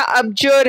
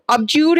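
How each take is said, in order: First: अबजर ending in "jur", without the "yoo" glide; short-vowel pronunciation. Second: अबज्यूर ending in "jyoor"; long-u pronunciation. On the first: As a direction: say अबजर with a neutral "jer" in the second syllable. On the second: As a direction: say अबज्यूर with a long "yoo" in the second syllable. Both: Shown as a demonstration. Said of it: "इसका pronunciation check करो".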